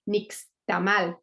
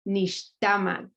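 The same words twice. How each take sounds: First: The stress is on the last syllable. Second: The stress is on the second-to-last syllable. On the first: The speaker calls it wrong. "Spanish speaking people just say nixtamal" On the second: The speaker calls it right. "the correct pronunciation is nixtamal"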